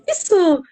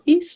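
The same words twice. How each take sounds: First: It is said with lively excitement. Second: It is said in a plain, neutral tone.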